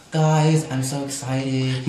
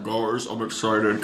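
First: Lightly imitated excited diva, slow. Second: Low, slow diva impression. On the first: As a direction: draw out a mock-excited announcement. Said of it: "she was all excited". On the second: Shown as a demonstration. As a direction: drag it out low and husky like a smoker. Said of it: "that's not her voice. You gotta be like".

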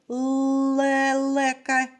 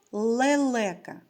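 First: "лелека" with the first Л held long; first sound stressed. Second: Said in the usual way. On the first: Shown as a demonstration. Teacher asking children for the first sound, drawing out the first Л of "лелека". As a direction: hold the opening Л of "лелека". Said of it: "Перший звук у слові". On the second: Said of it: "виконати звуковий аналіз слова".

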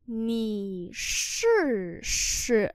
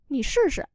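First: Very slow drawn-out teaching pronunciation; slow syllable-by-syllable model. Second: Said in the usual way. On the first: Shown as a demonstration. Teacher models Chinese phrase for learners, very slowly. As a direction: stretch each syllable, pause between them.

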